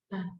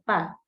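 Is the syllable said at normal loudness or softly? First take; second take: softly; normal. First: The syllable is said very softly. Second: The syllable is said at normal loudness. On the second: "al principio mío"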